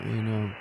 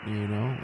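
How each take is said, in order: Both takes have the same delivery.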